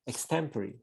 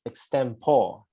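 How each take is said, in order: First: The ending sounds like 'peri', as in temporary. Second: The ending sounds like 'pore', not 'peri'. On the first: The speaker calls it right. "it should be pronounced as like temporary ... So peri" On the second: The speaker calls it wrong. "Although you pronounce it as extempore"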